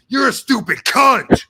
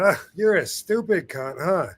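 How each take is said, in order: First: It is said harshly and insultingly. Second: It is said lightly and affectionately.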